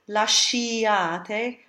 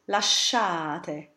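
First: An 'ee' vowel is heard after the 'sh'. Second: No 'ee' vowel is heard after the 'sh'. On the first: The speaker calls it wrong. "we don't say lasciate" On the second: The speaker calls it right. "but lasciate"

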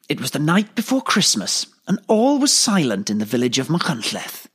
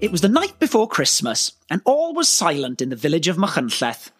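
First: The voice is husky and sounds confident. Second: The voice is clear and plain, not husky. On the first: "husky and confident" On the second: "that was perfect"

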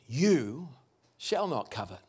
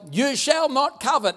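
First: It sounds like a warm promise. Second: It sounds like a stern command.

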